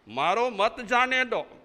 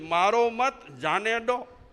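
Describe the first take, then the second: First: The break comes after 'maaro'. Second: The break comes after 'mat'.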